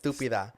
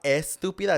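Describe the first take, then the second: First: The word begins directly with an s sound. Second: The word begins with an e vowel sound. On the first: It is a softened, more comedic insult. The speaker calls it right. "it's stúpida" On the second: It is the standard, harsh-sounding insult. The speaker calls it wrong. "it's not estúpida"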